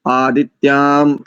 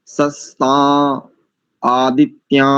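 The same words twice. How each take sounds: First: आदित्याम closed with a clear m; anusvara as m. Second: आदित्या ending on an open a with no m; anusvara as plain a. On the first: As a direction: end आदित्याम on a firm m sound. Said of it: "कुछ लोग इसका म". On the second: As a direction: say सस्ता, आदित्या with the anusvara dropped to a bare a. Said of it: "कुछ लोग इसको अ ऐसा भी करते हैं". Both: Shown as a demonstration.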